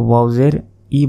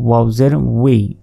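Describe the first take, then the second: First: The final syllable is a plain 'i' sound. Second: The final syllable is a 'wi' sound. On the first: The speaker calls it wrong. "অনেকে ওয়াও জের ই বলে, এটা কিন্তু ভুল উচ্চারণ।" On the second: The speaker calls it right.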